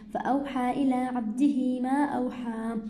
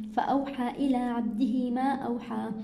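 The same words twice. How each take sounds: The two takes are said the same way.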